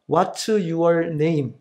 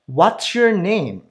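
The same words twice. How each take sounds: First: Every syllable gets equal length and force. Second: The content words are stressed, others reduced. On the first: The speaker calls it wrong. "한국식으로 발음하면" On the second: The speaker calls it right. "내용어에 강세를 넣어 발음하면"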